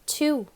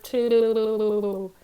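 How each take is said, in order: First: It is said in a normal voice. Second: It is said in a bubbly underwater voice.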